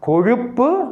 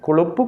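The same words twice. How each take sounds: First: The middle consonant is a clear retroflex zh. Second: The middle consonant is a plain l sound. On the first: The speaker calls it right. "அழுத்தம் திருத்தமாக அந்த ழாவை சொல்ல வேண்டும்" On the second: The speaker calls it wrong. "அப்படி அல்ல"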